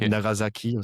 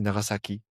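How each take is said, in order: First: The S is voiced like a Z sound. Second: The S is a voiceless S sound. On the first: The speaker calls it wrong. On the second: The speaker calls it right.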